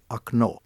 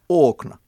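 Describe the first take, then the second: First: The stress is on the second syllable. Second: The stress is on the first syllable. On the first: The speaker calls it right. "se on venäjäksi akno" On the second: The speaker calls it wrong. "jos siinä olisikin paino siinä alussa"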